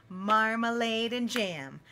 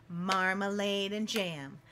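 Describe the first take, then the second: Both takes have the same delivery.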